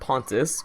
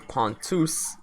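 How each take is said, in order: First: The name is pronounced in the English way. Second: The name is pronounced in the Greek way. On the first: "I will be using the English way" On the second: "that's the Greek way of saying it"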